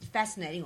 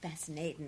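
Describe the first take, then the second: First: It is said in a natural voice. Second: It is said in a put-on imitating voice.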